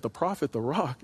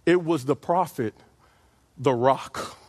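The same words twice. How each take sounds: First: Softer, doubtful rising question; hushed mock disbelief; incredulous question. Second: Said in the usual way. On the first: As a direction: ask it like you can't believe your ears. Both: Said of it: "You said".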